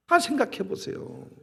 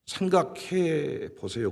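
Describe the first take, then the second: First: Said in the usual way. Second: 생각해 보세요 drawn out slowly, leaning on 생각해; slow, emphatic 생각해. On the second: Real, not acted. Preacher urging the congregation, slow emphatic 생각해. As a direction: stretch 생각해 보세요 to make them think. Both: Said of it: "생각 좀 해보세요".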